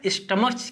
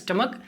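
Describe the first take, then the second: First: The word ends with a ch sound. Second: The word ends with a k sound. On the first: The speaker calls it wrong. "स्टमक की जगह" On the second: The speaker calls it right. "यानी sound आता है का का"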